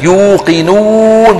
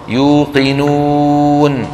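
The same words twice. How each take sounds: First: يوقنون higher, lips pushed far out; overdone lip rounding. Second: يوقنون chanted long, oo rounded without overdoing it; moderate lip rounding. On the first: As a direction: exaggerate the oo in يوقنون, drawing it out. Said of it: "بعض إخواننا كمان بيزودها كتير". (يوقنون بمبالغة شديدة في ضم الشفتين) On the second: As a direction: round the و of يوقنون just enough, slowly. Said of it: "ضما غير مبالغا فيه". (يوقنون بضم معتدل غير مبالغ فيه) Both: Shown as a demonstration.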